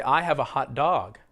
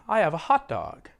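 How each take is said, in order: First: "hot" and "dog" as two words, dog stronger; stress on DOG. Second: "hot dog" as one word, peak on hot; stress on HOT. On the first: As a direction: give dog its own weight after hot. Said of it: "What comes to your mind?". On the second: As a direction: punch hot and let dog drop. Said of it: "You stress the first word as if". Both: Shown as a demonstration.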